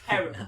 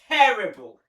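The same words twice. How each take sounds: First: It is said quietly. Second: It is said loudly.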